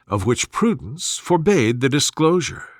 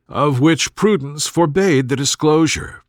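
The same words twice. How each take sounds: The two takes are said the same way.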